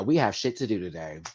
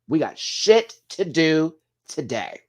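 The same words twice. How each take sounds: First: Said in the usual way. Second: Higher, louder and slow, leaning hard on shit; stress on shit. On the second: Shown as a demonstration. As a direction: hammer shit, slow and loud.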